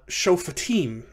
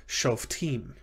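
First: Shofatim in three syllables, "sho-fuh-TEEM"; sounded schwa. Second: Shoftim in two syllables, "shof-TEEM"; silent schwa. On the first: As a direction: say shofatim slowly with an audible "fuh". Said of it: "but the fe becomes f". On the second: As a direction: say shoftim with no vowel after the f. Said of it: "shavas after short vowels are typically silent". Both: Shown as a demonstration.

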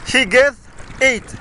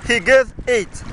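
Both takes have the same delivery.

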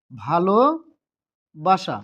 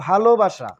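First: ভালোবাসা very slow, broken in two with a long pause; syllable by syllable. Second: Said in the usual way. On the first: Shown as a demonstration. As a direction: stretch ভালো, pause, then say বাসা. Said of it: "এক নিঃশ্বাসে কিংবা এক প্রয়াসে". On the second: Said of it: "আমি যদি বলি".

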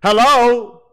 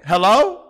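First: A louder call of hello. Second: Said in the usual way. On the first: Real, not acted.

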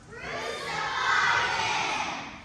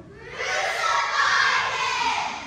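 First: High, slow drawn-out cry of crucify; crowd yell. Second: High, slow shout, rising on crucify; louder shout. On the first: The crowd demanding of Pilate, a high drawn-out cry. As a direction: call it out long and rising like a mob. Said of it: "The people yelled". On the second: The crowd shouting louder at Pilate, a rising shout. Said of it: "They only shouted the louder". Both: Retold or imitated.

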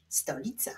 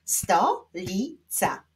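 First: Said in the usual way. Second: "Stolica" slowly, in three separate syllables; slow clapping-out beat on "Stolica"; split into syllables. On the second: Shown as a demonstration. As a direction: pause after each syllable of "Stolica". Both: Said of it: "Wyklaszczmy teraz sylaby".

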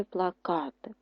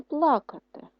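First: ПлаКАти with the middle syllable stressed; pla-KA-ty, weight in the middle; stress on second syllable. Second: ПЛАкати with the first syllable stressed; PLA-ka-ty, weight up front. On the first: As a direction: lean on КА in плакати. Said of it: "поставили на А наголос". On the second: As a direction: lean on ПЛА in плакати. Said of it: "І поставили теж на А, але на першу". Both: Shown as a demonstration.

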